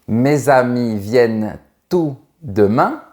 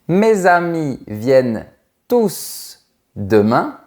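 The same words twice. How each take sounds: First: The s at the end of 'tous' is silent. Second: The s at the end of 'tous' is pronounced. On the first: "Je ne prononce pas le S" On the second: "Je prononce le S"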